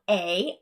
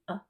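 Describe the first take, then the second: First: The word has a full open vowel. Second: The word has a reduced weak vowel. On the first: "this big open a" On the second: "I reduced it down to a"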